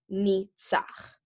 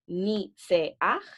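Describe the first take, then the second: First: Two syllables, with no e sound in the middle. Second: Three syllables, with an e sound in the middle. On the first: "or just as I, A" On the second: "This is the I, E, A"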